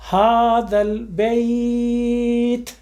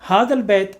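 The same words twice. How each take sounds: First: The y glide in bait is clearly pronounced. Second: The y glide in bait is dropped. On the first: The speaker calls it right. "बैत या के लिए" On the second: The speaker calls it wrong. "बैत पढ़ रहे, या कहाँ गई, खत्म"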